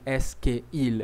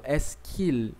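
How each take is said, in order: First: "est-ce que il" with "que" and "il" kept apart; unlinked words. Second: "est-ce qu'il" merged as "ess-keel"; fuse "que" and "il" into one syllable, "qu'il"; linked "qu'il". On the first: Teacher shows what not to say, "que il" unjoined. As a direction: separate "que" from "il". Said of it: "eu não falei est-ce que il". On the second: Teacher shows the union, "qu'il" joined. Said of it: "eu falo est-ce qu'il". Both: Shown as a demonstration.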